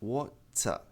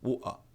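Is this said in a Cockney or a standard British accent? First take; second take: standard; Cockney. First: A clear T sound is said in the middle. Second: The T becomes a catch in the throat. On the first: "A pronúncia padrão é water" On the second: "Quem tem sotaque pronuncia, ao invés de water, pronuncia dessa maneira"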